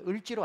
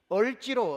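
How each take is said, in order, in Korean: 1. 첫 번째 모음은 'eu' 소리입니다. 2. 첫 번째 모음은 'eo' 소리입니다. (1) "을지로 안 됩니다" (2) "다 뽀록 나는 겁니다"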